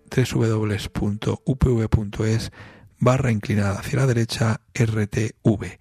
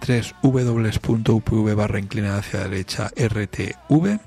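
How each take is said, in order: First: It is said more slowly. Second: It is said at normal, quicker speed.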